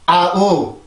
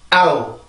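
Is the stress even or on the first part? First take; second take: even; first part. First: Both parts are said evenly, as two syllables. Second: The stress is on the first part, one glide. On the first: The speaker calls it wrong. "이런 발음이 아니라" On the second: The speaker calls it right. "이렇게 발음을 해줘요. 그래서 강세가 앞에 있고"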